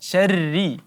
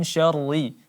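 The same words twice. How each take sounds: First: The r is pronounced thin and light. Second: The r is pronounced thick and heavy. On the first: The speaker calls it right. "huruf ra-nya juga langsung kita tipiskan" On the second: The speaker calls it wrong.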